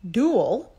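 It is said in an American accent.

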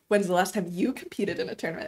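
The question sounds heavy and judgmental. The asker disapproves of how long it has been. The speaker calls it wrong. "That's not like judgmental question. It's not like"

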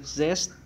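The letter is pronounced zed, rhyming with bed. This is the British English form. "letter Z for British English"

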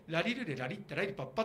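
The voice is projected with crisp articulation. The speaker calls it right. "こっちの喋り方で"

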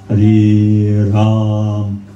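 It is said warmly, from the heart.

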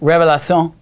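It is pronounced with French sounds.

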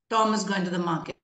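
The stress falls on the word Tom. It answers who is going to the market. "Tom is being stressed on here"

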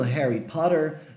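It is said with an American accent. "como você vai pronunciar em inglês americano"

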